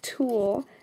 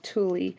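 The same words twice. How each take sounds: First: The word is said with its standard pronunciation. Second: The word is said with a family habit pronunciation. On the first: This is the accepted pronunciation. The speaker calls it right. "I know that it's pronounced tulle" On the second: This is how a family member says it. The speaker calls it wrong. "that's the way my mother says it"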